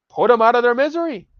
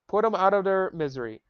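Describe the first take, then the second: First: Loud, high outburst; exasperated shout. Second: Said in the usual way. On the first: Real, not acted. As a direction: yell it out in disgust. Shouting at chat comments.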